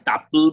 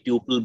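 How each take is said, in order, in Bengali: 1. প্রথম স্বরধ্বনিটি 'ah' এর মতো শোনায়। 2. প্রথম স্বরধ্বনিটি 'yoo' এর মতো শোনায়। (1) "কেউ একে টাপল বলে" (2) "আমি টিউপল বলি যাতে বানানটা ভুল না হয়"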